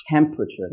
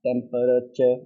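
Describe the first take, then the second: First: TEMPERATURE in three syllables, TEM-pruh-chur, with an airy T; aspirated T. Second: TEMPERATURE as DEM-puh-duh-tuh, airless T; blunt the T of TEMPERATURE to a D and drop the R; unaspirated T. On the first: Teacher models temperature with aspiration, strong airy T. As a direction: start TEMPERATURE on a higher, strong puff of T. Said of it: "the aspiration". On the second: Teacher shows learners what not to say, unaspirated T. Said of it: "not temperature". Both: Shown as a demonstration.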